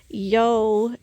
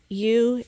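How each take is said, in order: First: The word rhymes with 'go'. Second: The word rhymes with 'too'. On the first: A regional slang form used by some people. The speaker calls it wrong. "yo somehow came into play, and I do assume it was some kind of slang" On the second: The standard form of the word. The speaker calls it right. "ewe is the correct way to pronounce E W E"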